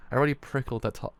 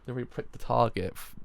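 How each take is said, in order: First: Prickled said as a slip for pricked; misread word. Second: Pricked said cleanly as the fix; corrected reading. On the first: Reader stumbling over the word, says "prickled". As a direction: read "prickled" by mistake. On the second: Reader fixing his slip, says "pricked". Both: Shown as a demonstration. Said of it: "oh, prickled?".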